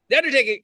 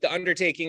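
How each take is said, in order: First: It is said with excited, exclamatory energy. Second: It is said flatly, without exclamation.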